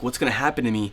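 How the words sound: It sounds anxious and worried.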